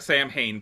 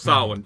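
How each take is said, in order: First: The name is said literally as 'Sam Hain'. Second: The name is not said as 'Sam Hain'. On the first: The speaker calls it wrong. "not actually Sam Hain" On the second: The speaker calls it right.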